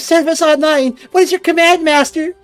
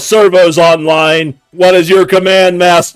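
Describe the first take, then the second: First: The voice is high-pitched and squeaky. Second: The voice is plain, not high or squeaky. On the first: This is how the character actually sounds. "I was not expecting a squeaky voice" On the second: This is how the character was imagined. "Every single time I've imagined this character, it's like"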